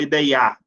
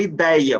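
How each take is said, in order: First: "ideiar" with the stress pushed onto the last A; stress on final syllable. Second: "ideia" with the stress on DEI; stress on second-to-last syllable. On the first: Teacher showing how nobody says it, final stress on "ideiar". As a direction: say "ideiar" wrongly, i-dei-Á. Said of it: "você não fala ideiar". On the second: Teacher showing students the correct word, penultimate stress on "ideia". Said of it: "a sílaba tônica é a penúltima". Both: Shown as a demonstration.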